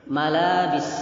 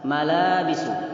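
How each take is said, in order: First: The word ends on the s consonant. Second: The word ends with a final u vowel.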